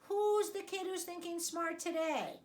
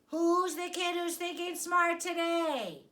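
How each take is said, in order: First: It is said at a normal volume. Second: It is said somewhat more loudly.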